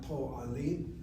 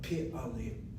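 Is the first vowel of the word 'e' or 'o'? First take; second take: o; e. First: The first vowel sounds like 'o'. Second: The first vowel sounds like 'e'. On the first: The speaker calls it wrong. "That explains why it's not po'alim" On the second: The speaker calls it right. "Pi'alim is the proper pronunciation"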